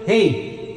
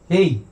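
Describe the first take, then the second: First: The voice has echo and reverb added. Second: The voice sounds dry with no echo. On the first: "may echo na, no?" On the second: "hindi lang ako naglagay ng echo, no? Flat lang"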